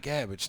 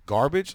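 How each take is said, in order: First: "Garbage" said as GAB-idge; garbled garbage. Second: Loud, questioning "Garbage" with its r, GAR-bidge; corrective garbage. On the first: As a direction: drop the r in "Garbage", short a. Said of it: "I called it garbage". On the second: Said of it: "they're like". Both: Retold or imitated.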